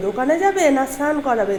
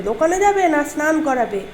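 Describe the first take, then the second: No difference in how they are said.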